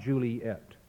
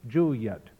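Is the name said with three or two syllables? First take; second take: three; two. First: The name is said in three syllables. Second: The name is said in two syllables. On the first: The speaker calls it wrong. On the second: The speaker calls it right. "pronounce the name in 2 syllables"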